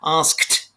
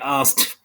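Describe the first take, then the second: First: The full consonant cluster is pronounced. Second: A consonant in the cluster is dropped. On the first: "Consonant cluster" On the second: "they don't put the in there"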